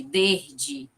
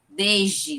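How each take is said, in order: First: Desde with a hushing zh before the d. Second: Desde with a buzzing z before the d. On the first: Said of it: "como se fosse com J". (desde com som de j) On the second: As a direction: say desde, the s voiced as z. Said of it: "como se fosse com Z". (desde com som de z) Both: Shown as a demonstration.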